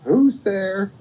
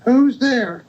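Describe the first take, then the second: First: High-pitched storybook grandmother; grandmother's call. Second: Very high put-on granny voice; wolf posing as grandmother. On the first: Acted. Grandmother asking who knocked, high-pitched call. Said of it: "And grandmother says". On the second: Wolf in grandmother's bed answering the knock, very high imitation. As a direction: mimic grandmother in a high-pitched call. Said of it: "and the wolf said".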